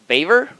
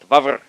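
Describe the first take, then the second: First: The name sounds like the word beaver. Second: The name is pronounced letter by letter, as spelled. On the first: This is how other people say the name. "what people call Beaver" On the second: This is the speaker's own way of saying the name. "I typically pronounce things the way they're spelled"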